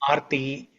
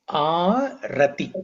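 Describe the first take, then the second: First: Two syllables, the middle vowel dropped. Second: Three syllables, beginning with a vowel. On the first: The speaker calls it wrong. "some people say Arti" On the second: The speaker calls it right. "the correct word is Arati"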